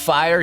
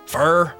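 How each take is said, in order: First: It is said with a plain, general vowel. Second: It is said with a Southern drawl, like fur. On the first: "instead of fire" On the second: "he said like fur"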